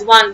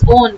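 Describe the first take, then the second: First: The suffix is said like the number one. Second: The suffix is said like the word on. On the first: The speaker calls it wrong. "Don't pronounce this as one" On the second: The speaker calls it right. "This is on"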